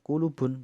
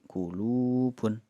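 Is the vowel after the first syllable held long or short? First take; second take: short; long. First: The middle vowel is held short, one beat. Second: The middle vowel is held long, two beats. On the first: The speaker calls it wrong. "bukan kulubun" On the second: The speaker calls it right. "tapi kulubun"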